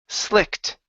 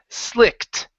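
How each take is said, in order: Both takes have the same delivery.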